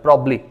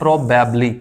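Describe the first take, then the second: First: Only one b is heard, giving two syllables. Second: Every vowel is sounded, giving four syllables. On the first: "एक ही B को पढ़ा जाता है" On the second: "इसको लोग कहते हैं प्रोबेबली"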